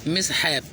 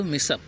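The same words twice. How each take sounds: First: "मिसहैप" as two parts, mis-hap; spelling pronunciation "मिसहैप" with audible h; as spelled. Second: "मिसअप" said mis-up, no h; taught pronunciation. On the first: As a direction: sound the h and full a in "मिसहैप". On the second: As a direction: drop the h in "मिसअप". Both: Shown as a demonstration. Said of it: "लेकिन पढ़ते हैं इसको".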